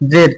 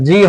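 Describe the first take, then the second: First: The letter name ends with a 'd' sound. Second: The letter name ends with an 'ee' sound. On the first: The speaker calls it wrong. "সেটাকে আমরা বলি যে জেড" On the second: The speaker calls it right. "সঠিক উচ্চারণ হচ্ছে যে এটা জি হবে"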